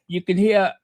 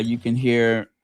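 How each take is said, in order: First: Higher-pitched, badly faked English accent. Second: Said in the usual way. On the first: Host promising viewers BBC news, in mock English accent. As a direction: put on a terrible English accent. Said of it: "I do the worst English accent".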